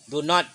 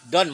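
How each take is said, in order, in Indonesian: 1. Diucapkan sebagai dua kata penuh yang terpisah. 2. Disingkat menjadi satu suku kata. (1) "Mana yang mudah mengucapkan don't atau do not?" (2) "kalau lebih enak don't, biasakan gunakan don't"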